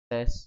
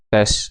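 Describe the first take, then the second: First: The voice sounds faint and nearly disappears. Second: The voice sounds broken up and distorted. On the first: "sama aja suaranya hilang" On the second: "pecah. Suaranya pecah"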